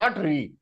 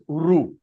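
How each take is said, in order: First: The vowel sounds like 're'. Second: The vowel sounds like 'ru'. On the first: The speaker calls it wrong. "It is not re" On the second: The speaker calls it right. "it is ru"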